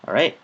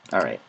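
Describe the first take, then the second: First: "All right?" asked with a rising question tune; questioning rise. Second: "All right." dropped low with a firm falling tune; low settled answer. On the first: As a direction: say "All right?" as a question, pitch going up at the end. Asking himself, then answering. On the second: Answering his own question. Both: Pretend.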